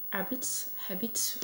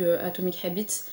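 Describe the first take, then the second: First: Whispered retry of "Habits", softer, unsure of the English; testing "Habits" under her breath; chuchoté, hésitant. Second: Said in the usual way. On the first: Shown as a demonstration. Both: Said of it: "mon accent anglais nul".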